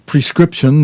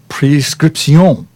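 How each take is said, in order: First: It is said with an English pronunciation. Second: It is said with a French pronunciation. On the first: "prescription in English" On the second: "you put the French pronunciation to it"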